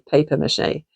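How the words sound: It is said the American way, paper. "Americans say paper mâché"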